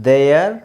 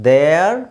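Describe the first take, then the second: Both takes have the same delivery.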